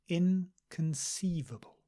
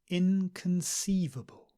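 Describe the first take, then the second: The two takes are said the same way.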